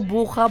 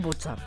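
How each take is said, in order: First: The middle consonant is a rough ch sound. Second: The middle consonant is a ts sound. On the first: The speaker calls it wrong. "την έχουν κάνει λίγο Μπούχα" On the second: The speaker calls it right. "Το σωστό είναι Μπούτσα"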